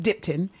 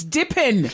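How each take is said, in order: First: Dipton, with a T after the P; mispronounced name. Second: Dippin', with no T in the middle; corrected name. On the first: Host quoting her mistake, Dipton with a T. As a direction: say Dipton with a "tun" ending. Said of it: "it's not Dipton". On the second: Host correcting guest's name, Dippin' without a T. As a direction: say Dippin' with a "pin" ending. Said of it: "it's not Dipton. It's Dippin'". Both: Shown as a demonstration.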